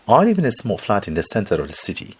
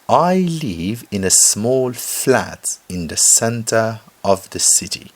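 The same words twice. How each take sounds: First: It is read at normal speed. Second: It is read slowly and carefully.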